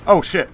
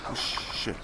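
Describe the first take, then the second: First: Loud, sudden curse; startled shout. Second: Breathy whisper under the breath. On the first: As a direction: blurt it out in alarm. Sudden enemy appears. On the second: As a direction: mutter it almost silently. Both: Real, not acted.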